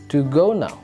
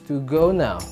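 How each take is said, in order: The two takes are said the same way.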